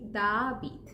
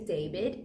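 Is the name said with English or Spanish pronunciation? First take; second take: Spanish; English. First: It is said with Spanish vowel sounds. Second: It is said with English vowel sounds. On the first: The speaker calls it right. "we say David" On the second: The speaker calls it wrong. "I know in English you might say David. We don't say David"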